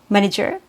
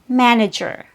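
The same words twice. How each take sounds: First: The first vowel is said with a closed mouth. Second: The first vowel is said with an open mouth. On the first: The speaker calls it wrong. "you don't want to say manager ... because that's not accurate" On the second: The speaker calls it right. "You have to drop your jaw and open your mouth a little bit"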